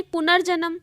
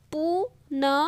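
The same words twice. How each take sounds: First: Said in the usual way. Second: पुनर्जन्म letter by letter, "pu-na-ra-ja-na-ma"; evenly separated syllables in पुनर्जन्म; sounded out. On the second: Shown as a demonstration. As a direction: spell out पुनर्जन्म with a gap after each sound. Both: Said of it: "र के बाद क्या आ रहा है".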